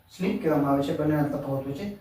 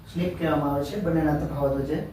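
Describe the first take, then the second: No difference in how they are said.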